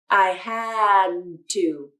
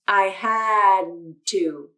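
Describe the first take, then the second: First: The D is held in a pause before 'to'. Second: The same.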